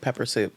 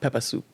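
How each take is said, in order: First: It is said in the speaker's ordinary accent. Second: It is said imitating another group's accent. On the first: "Mostly they call it" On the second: "but they pronounce it"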